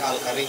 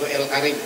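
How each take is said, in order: First: It begins with an 'ah' vowel sound. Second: It begins with an 'eh' vowel sound. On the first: This is the Indonesian way of saying it. "Tapi kalau Indonesia Al-Karim" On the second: This is the Egyptian way of saying it. "kalau versi Mesir itu El Karim"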